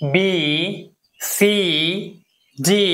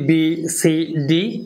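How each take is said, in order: First: The letter vowels are drawn out long. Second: The letter vowels are short. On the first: The speaker calls it right. "এগুলো একটু লম্বা উচ্চারণ হবে" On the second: The speaker calls it wrong. "আমরা এটাকে বলি"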